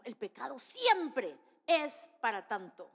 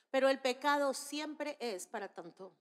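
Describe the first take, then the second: First: "siempre" drawn out in a big falling swoop; stress on siempre. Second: Said in the usual way. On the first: Real, not acted. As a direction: hit "siempre" hard, then pause and spell out the rest. Emphatic repeat of refrain.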